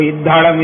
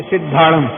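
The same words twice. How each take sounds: First: इद्धाड़म with the initial स dropped; इद्धाड़म as a speaker who cannot say स would say it; mispronounced demo. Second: Said in the usual way. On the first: Shown as a demonstration. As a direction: drop the स sound and say इद्धाड़म. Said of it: "इद्धाड़म ऐसा बोलता है". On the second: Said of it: "अपने मन में तो सिद्धाड़म ही बोल रहा है".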